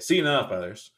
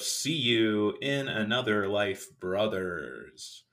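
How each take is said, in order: First: Syllables are slurred and run together quickly. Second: Every syllable is pronounced clearly and separately. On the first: The speaker calls it wrong. "I think sometimes I could say" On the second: The speaker calls it right. "I tried to enunciate that time"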